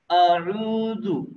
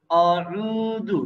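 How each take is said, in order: The two takes are said the same way.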